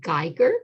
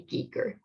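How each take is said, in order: First: The name is said with the German pronunciation. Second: The name is said with the Swiss pronunciation. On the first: "which is the German pronunciation" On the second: "The Swiss say Giger"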